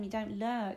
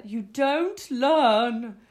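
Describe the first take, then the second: First: Said in the usual way. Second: "don't learn" drawn out slow and loud; "don't learn" hammered slowly for effect; mock-dramatic emphasis. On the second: Real, not acted. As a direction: stretch out "don't" and "learn" as a big lament.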